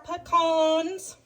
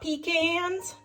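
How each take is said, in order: First: It is said in a southern way. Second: It is said in a non-southern way. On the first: The speaker calls it right. "I know all my southern friends call them that" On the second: The speaker calls it wrong. "They are not pecans"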